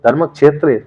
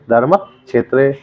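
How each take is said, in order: First: धर्म क्षेत्र with a clear क्ष; धर्म क्षेत्र pronounced carefully; careful recitation. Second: धर्म क्षेत्र drawn out slowly, each syllable full; धर्म क्षेत्र said slowly with a clear क्ष; slow careful recitation. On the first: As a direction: spell out धर्म क्षेत्र syllable by syllable. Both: Shown as a demonstration. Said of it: "धर्म क्षेत्र भी बोलेंगे".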